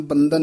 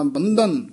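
First: ਬੰਧਨ hurried with an unaspirated, flattened dh; plain d. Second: ਬੰਧਨ with a distinct Punjabi dh and falling end; clear dh. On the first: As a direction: slur the dh of ਬੰਧਨ. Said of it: "ਬੰਧਨ ਨਹੀਂ ਕਹਿਣਾ". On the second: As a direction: articulate the dh in ਬੰਧਨ. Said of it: "ਬੰਧਨ ਤੱਦੇ ਨਾਲ". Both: Shown as a demonstration.

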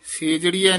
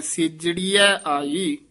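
First: ਸੇਜੜੀਐ said with a long open e in the first syllable; ਸੇਜੜੀਐ with se- instead of the short si-; wrong pronunciation. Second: ਸਿਜੜੀਐ with a short, tight si-, said slowly; tight correct pronunciation. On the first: Teacher showing students the wrong reading, ਸੇਜੜੀਐ with a long e. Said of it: "ਸੇਜੜੀਐ ਨਹੀਂ ਬੋਲਣਾ". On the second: Teacher giving students the correct reading, ਸਿਜੜੀਐ short and tight. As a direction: press ਸਿਜੜੀਐ out firmly with a short first vowel. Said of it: "ਥੋੜਾ ਜਿਹਾ ਕਸ ਕੇ ਬੋਲਣਾ ਹੈ". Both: Shown as a demonstration.

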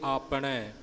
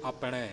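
First: ਆਪਣੇ said with a long opening "aa"; careful model of ਆਪਣੇ as aapne; long first vowel. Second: ਆਪਣੇ said with a short opening "a", ap-ne; softer model of ਆਪਣੇ as apne; short first vowel. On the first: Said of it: "ਜਿੱਥੇ ਕੰਨਾ ਲੱਗਾ ਹੈ". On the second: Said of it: "ਜਿੱਥੇ ਨਹੀਂ ਲੱਗਾ". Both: Shown as a demonstration.

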